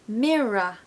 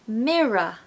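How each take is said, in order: The two takes are said the same way.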